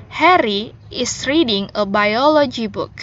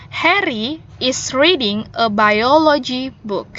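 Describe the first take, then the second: Both takes have the same delivery.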